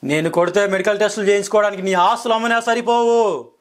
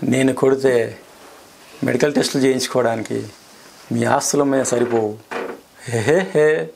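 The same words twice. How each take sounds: First: Angry dialogue. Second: Plain-ish delivery with a chuckle at the end; laughing version. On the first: Actor delivers Simha dialogue in anger for the interviewer. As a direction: bellow it like a mass hero threatening a villain. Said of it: "కోపంగా చెప్తాను dialogue". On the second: Asked to say it laughing, actor adds a chuckle. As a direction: say it lightly then laugh it off. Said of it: "ఇప్పుడు నవ్వుకుంటూ చెప్పండి". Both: Shown as a demonstration.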